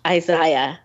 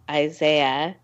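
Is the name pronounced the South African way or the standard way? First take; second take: South African; standard. First: The name is pronounced the South African way. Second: The name is pronounced the usual, non-South African way. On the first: "in South Africa, ... they say, Isaiah" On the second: "instead of saying Isaiah"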